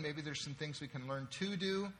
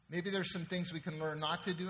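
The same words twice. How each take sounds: First: "to" given full vowel and emphasis, like "too"; stress on TO. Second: "not" set out against its opposite; stress on NOT. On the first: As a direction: lean on the word "to" before "do". Contrasts to do with not to do. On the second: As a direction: lean on the word "not". Contrasts not to do with to do. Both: Real, not acted.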